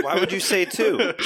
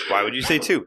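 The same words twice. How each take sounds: First: High, laughing exasperation; laughing disbelief. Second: Said in the usual way. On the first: Real, not acted. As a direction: laugh through the question. Friend laughing at bad roll.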